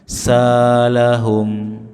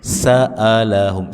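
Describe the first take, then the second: First: The middle is a long vowel without a stop. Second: The middle has a firm glottal stop. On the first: The speaker calls it wrong. "jangan dibaca mirip alif ... tidak" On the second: The speaker calls it right. "hamzah tegas"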